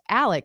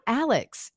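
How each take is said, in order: First: The name ends with a plain k sound. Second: The name ends with a ks sound. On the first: The speaker calls it right. "It's pronounced Alec, which is the Southern way" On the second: The speaker calls it wrong. "it's not Alex"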